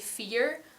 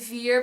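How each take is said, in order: First: The word starts with a voiceless F sound. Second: The word starts with a voiced V sound. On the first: "but I would say fear" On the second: "So I would not say vier"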